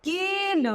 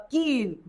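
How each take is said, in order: First: कील said with a long, high ई; stretched long ई. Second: Said in the usual way. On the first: Shown as a demonstration. (कील में ई को लंबा और ऊँचा खींचकर) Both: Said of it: "उच्चारण हो जाएगा की".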